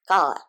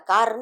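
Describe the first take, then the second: First: The word ends on a long vowel, no r. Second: The word ends with an audible r sound. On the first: The speaker calls it right. "British English में र pronounce नहीं होता" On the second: The speaker calls it wrong. "र नहीं आएगा, कार नहीं"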